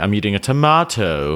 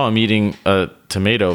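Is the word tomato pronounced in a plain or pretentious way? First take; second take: pretentious; plain. First: Tomato is pronounced in an affected, pretentious way. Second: Tomato is pronounced in a plain, ordinary way. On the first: The speaker is showing off. "if you were being pretentious, you'd say" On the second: The speaker is talking normally. "you wouldn't say to somebody like, oh"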